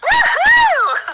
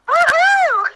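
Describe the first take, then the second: First: It is shouted with more energy. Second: It is shouted with less energy.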